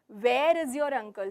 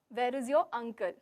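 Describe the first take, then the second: First: The word 'where' carries the main stress. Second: The word 'uncle' carries the main stress. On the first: The question asks about the place. "So here I'm asking, where is he? The venue, the place" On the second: The uncle is wanted, not other relatives. "So here I'm going again stressing on uncle"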